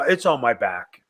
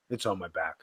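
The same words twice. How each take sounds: First: Said in the usual way. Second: Muttered again much lower and softer, almost swallowed; a private groan to himself; under-the-breath echo. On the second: Shown as a demonstration. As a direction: drop it to a near-whisper aside. Repeats the phrase, second much softer.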